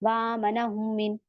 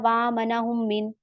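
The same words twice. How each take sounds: No difference in how they are said.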